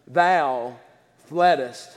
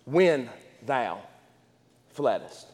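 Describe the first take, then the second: First: "thou" and "fleddest" set apart by pauses, low and soft; slow stress on thou fleddest. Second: "When thou" then "fleddest", low and soft, each word apart; slow stress on when thou fleddest. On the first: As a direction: drop low and lean on "thou", then "fleddest". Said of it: "Why did you emphasize those words". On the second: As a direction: hush it and press "fleddest" as past tense. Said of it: "Because it's past tense". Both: Shown as a demonstration.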